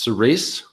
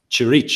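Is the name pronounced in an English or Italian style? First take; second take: English; Italian. First: The name is said with English-style sounds. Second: The name is said with Italian-style sounds. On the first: It is a girl's name. "It's intended to be pronounced Cerise" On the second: It is an old word for church. "I'm in Italy... it's Cerise is what I sort of read now"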